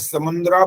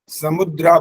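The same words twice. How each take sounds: First: The word has a nasal n sound inside. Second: The word has no nasal sound inside. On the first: The speaker calls it wrong. "एक तो आपने समुद्रा बोल दिया शुरू में" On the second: The speaker calls it right. "न की आवाज यानी नासिका से आवाज ना आए"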